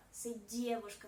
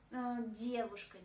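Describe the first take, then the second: First: Девушка said dievushka, with a soft d before ie; девушка with a clear palatal d; correct soft-D девушка. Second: Девушка said with a hard d, diavushka; девушка with the first vowel opened toward a; wrong hard-D девушка. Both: Shown as a demonstration. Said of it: "C'est pas девушка".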